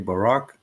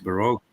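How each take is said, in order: First: The word is said with a foreign pronunciation. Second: The word is said with an English pronunciation. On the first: This is how the speaker's own language says it. "in my own language we say Baroque" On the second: This is how it is said in English. "maybe it's Baroque in, uh, in English. It could be more accurate"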